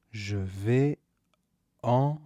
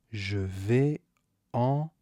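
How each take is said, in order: Both takes have the same delivery.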